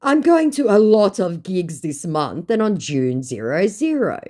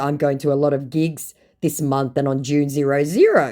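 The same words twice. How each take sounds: First: Breezy mock chatter. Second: Said in the usual way. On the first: Her own message acted.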